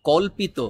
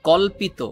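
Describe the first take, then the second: The two takes are said the same way.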